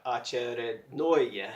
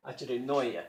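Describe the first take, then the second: First: "очередное" slow and even, every syllable the same, stress only on the last "ное"; robot-like. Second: Said in the usual way. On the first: Shown as a demonstration. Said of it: "practice it sounding like a robot". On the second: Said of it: "practice it sounding like a".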